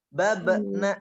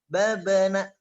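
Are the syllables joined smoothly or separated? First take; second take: separated; joined. First: The syllables are split apart with a break. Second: The syllables flow together without a break. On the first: The speaker calls it wrong. "bukan ... itu sudah terpisah tuh" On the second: The speaker calls it right. "lewat saja"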